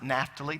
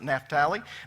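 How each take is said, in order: First: It is said the usual English way. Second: It is said the modern Israeli way. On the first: "now we usually pronounce it Naphtali" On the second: "They pronounce it Naphtali"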